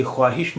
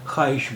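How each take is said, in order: First: ख्वाहिश said as khwaahish, with the w sounded; spelling pronunciation. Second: Said in the usual way. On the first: Shown as a demonstration. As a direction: sound the vav in ख्वाहिश: kh-waahish. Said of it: "इसे ख्वाहिश नहीं बोलते हैं". (ख्वाहिश में वाव की आवाज़ साफ़ बोलें) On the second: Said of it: "ख्वाहिश बोलते हैं".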